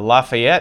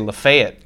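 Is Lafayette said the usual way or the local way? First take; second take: usual; local. First: It is said the usual general way. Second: It is said the local Tennessee way. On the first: "There's a Lafayette here" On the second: "but they say Lafayette"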